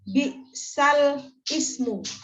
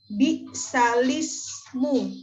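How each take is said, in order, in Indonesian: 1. Huruf lam ditutup dulu, lalu ismu dimulai terpisah. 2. Huruf lam langsung disambung ke vokal i setelahnya. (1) "bukan bi'sal ismu" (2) "orang yang melihat ini akan membaca bi'salismu"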